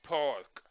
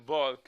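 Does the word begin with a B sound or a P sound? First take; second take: P sound; B sound. First: The word begins with a voiceless P sound. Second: The word begins with a voiced B sound. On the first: The speaker asks where to leave the car. The speaker calls it right. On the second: It is heard as barking like a dog. The speaker calls it wrong.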